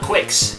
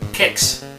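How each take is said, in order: First: It begins with a kw sound. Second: It begins with a plain k sound. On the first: The speaker calls it wrong. "It's not Quicks. There's no U there" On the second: The speaker calls it right. "pronounced Kicks"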